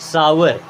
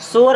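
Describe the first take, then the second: First: The first vowel sounds like 'ow'. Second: The first vowel sounds like 'oh'. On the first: The speaker calls it right. "क्या पढ़ते हैं? सावर" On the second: The speaker calls it wrong. "इसे सोअर नहीं पढ़ते हैं"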